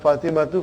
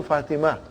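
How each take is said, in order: First: "Fatima to" run together as Fatimatu; ending -tu sounded. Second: Fatima ending on open -a; ending dropped. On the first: Teacher showing what not to say, "Fatima to" as Fatimatu. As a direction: say "Fatima to" as one word ending in -tu. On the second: Teacher showing the model for three, Fatima without ending. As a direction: say Fatima with no "-tu" after it. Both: Shown as a demonstration. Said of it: "not Fatima to Fatima".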